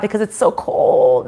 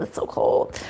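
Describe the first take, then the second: First: Said in the usual way. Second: Whispered under her breath; whispered complaint. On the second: Real, not acted. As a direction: murmur it half to herself.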